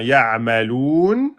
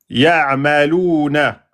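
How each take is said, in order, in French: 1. Le mot se termine par une consonne. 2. Le mot se termine par une voyelle brève.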